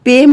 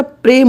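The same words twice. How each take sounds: First: पेम said as pem, the r dropped; पेम pronounced pem with no r; wrong pronunciation. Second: प्रेम said as prem, r clearly in the pr cluster; correct pronunciation. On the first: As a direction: read पेम plainly as pem, no r after the p. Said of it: "पेम नहीं होता". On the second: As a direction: sound the r in प्रेम, prem not pem. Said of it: "पदेन की मात्रा आएगी प्रेम". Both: Shown as a demonstration.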